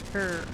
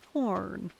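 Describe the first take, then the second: First: The word has a deliberately altered pronunciation. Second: The word has its usual pronunciation.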